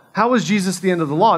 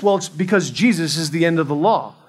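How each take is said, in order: First: "is" stressed, faster, rising at the end; rhetorical question. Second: Said in the usual way. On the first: Shown as a demonstration. Preacher questioning the congregation, "is" stressed and rising. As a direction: lean on "is" and lift the end as a question.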